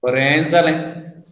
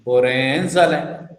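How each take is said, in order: First: Said in the usual way. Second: Borenzale said lower and slower with a falling tune. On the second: Shown as a demonstration. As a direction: drop the pitch and slow down on Borenzale. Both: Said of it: "See my tone".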